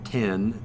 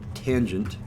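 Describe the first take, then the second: First: It is said as one short syllable. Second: It is said as the full two-syllable word. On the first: The speaker calls it wrong. "not tan" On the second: The speaker calls it right. "I pronounce that tangent"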